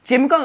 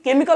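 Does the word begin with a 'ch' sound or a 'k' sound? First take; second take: ch; k. First: The word begins with a 'ch' sound. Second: The word begins with a 'k' sound. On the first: The speaker calls it wrong. "केमिकल नहीं" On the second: The speaker calls it right. "केमिकल होता है"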